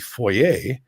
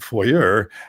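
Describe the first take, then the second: First: It is said the Canadian, French-like way. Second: It is said the American way.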